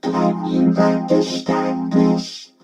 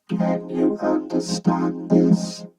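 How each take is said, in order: First: Slow, firm robotic synth speech; vocoder voice. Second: Slow, soft-edged robotic synth speech; softer vocoder voice. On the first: Reviewer testing vocoder clarity, slow robotic voice. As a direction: draw it out through a vocoder. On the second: Reviewer testing second vocoder's clarity, softer robotic voice. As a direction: draw it out gently through a vocoder. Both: Shown as a demonstration. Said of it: "Softer, that one".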